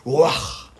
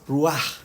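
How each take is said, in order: First: The word ends with a strong breath pushed out. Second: The word ends with a soft, ordinary sound. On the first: The speaker calls it right. "es exhalación, sale desde adentro y cuando uno la dice sale el, el aliento hacia afuera" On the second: The speaker calls it wrong. "no se dice como nosotros la decimos"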